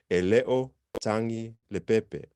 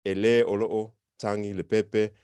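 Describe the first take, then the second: First: "Ele o tangi le pepe" with "olo'o" cut down to a single "o"; everyday contracted form. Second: Every syllable of "Ele olo'o tangi le pepe" said separately; full written form. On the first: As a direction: run it together the way people really say it. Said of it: "You'll hear this". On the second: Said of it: "you won't hear people say it like that". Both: Shown as a demonstration.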